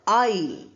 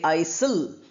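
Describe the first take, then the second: First: No S sound is heard in the word. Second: An S sound is heard in the word. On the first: The speaker calls it right. "S is silent" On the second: The speaker calls it wrong. "We don't say aisle"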